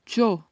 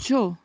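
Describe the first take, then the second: First: It starts with a soft sh-like sound. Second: It starts with a soft sh-like sound.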